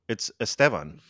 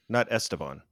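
First: The stress falls on the second syllable. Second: The stress falls on the first syllable. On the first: The speaker calls it right. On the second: The speaker calls it wrong.

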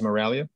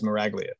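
First: The name is said with an Italian pronunciation. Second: The name is said with an English pronunciation. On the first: "There is an Italian pronunciation, which is" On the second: "There's the English way and the way I grew up, which was"

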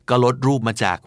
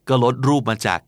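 The two takes are said the same way.

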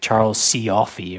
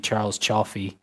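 First: The surname is pronounced the American way. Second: The surname is pronounced the Italian way. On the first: "he probably called himself like Charles Cioffi or something, because he was American" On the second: "in Italian pronunciation would be"

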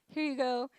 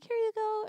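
First: The voice is pitched in a middle range. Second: The voice is pitched very high.

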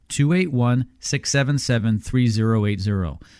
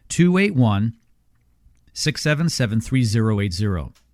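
No difference in how they are said.

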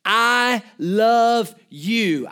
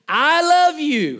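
First: It is said calmly, without extra force. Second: It is said loudly, with strong emphasis.

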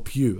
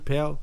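First: The name is one syllable, like 'few'. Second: The name has two syllables, like 'towel'. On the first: The speaker calls it right. "there you go" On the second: The speaker calls it wrong. "Is that how you pronounce his last name?"

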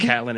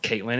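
First: The name is said the original English way. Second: The name is said an Americanized way. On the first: The speaker calls it right. "Instead of Catelyn" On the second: The speaker calls it wrong. "it's Caitlyn. ... It is so annoying"

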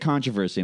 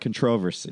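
First: It is said in an American way. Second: It is said in a British way. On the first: The speaker calls it right. "We want you to say controversy" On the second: The speaker calls it wrong. "not controversy"

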